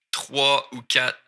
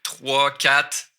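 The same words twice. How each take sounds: First: Trois ou quatre with the "ou" sounded; slow, careful trois ou quatre; full form. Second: Trois straight into quatre, no "ou"; casual Québécois trois, quatre; skipped word. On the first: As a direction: say all three words of trois ou quatre slowly. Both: Shown as a demonstration. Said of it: "je skip le ou ici".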